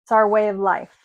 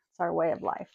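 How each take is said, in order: First: Said in the usual way. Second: Softer, lower repeat of the motto; a murmured repeat, lower and softer; soft echo. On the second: Shown as a demonstration. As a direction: echo it to yourself, quieter.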